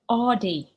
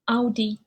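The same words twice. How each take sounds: First: It is said with an English pronunciation. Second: It is said with a German pronunciation. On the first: The speaker calls it wrong. "people uh, usually pronounce that Audi" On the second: The speaker calls it right. "in German they uh, they pronounce it Audi"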